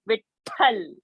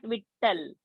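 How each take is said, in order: First: The middle t is said with a breath of air. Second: The middle t is said without a breath of air. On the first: The speaker calls it right. "you have to aspirate out" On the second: The speaker calls it wrong. "It's not Vittal"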